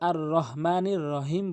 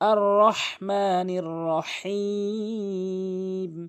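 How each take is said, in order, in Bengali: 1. এই h একটি সহজ, হালকা h ধ্বনি। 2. এই h গলার গভীর থেকে উচ্চারিত হয়। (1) "অধিকাংশ লোক আর রহমানির রহিম বলে" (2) "এখানে হাটি হলকের মাঝখান থেকে"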